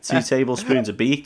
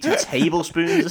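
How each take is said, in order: First: Said in the usual way. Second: TABLESPOONS stretched out and pitched high; slow, higher repeat leaning on "tablespoons"; incredulous stress. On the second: Real, not acted. Co-host marvelling at the drug amount, incredulous stress on "tablespoons".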